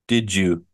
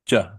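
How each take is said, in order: First: It is said with two syllables. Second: It is squeezed into one short syllable.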